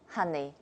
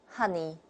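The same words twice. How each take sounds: The two takes are said the same way.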